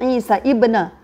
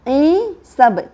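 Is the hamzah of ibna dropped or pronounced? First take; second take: pronounced; dropped. First: The ibna hamzah is sounded separately after Isa. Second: The words run together without the ibna hamzah. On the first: The speaker calls it wrong. "Kita tak boleh baca Isa ibna" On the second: The speaker calls it right. "So kita baca dia Isab"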